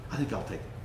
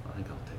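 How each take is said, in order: First: Said in the usual way. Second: Breathy whisper, much softer; whispered to himself. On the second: Retold or imitated. Preacher deciding on the dog, whispering to himself. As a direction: whisper it as a private decision.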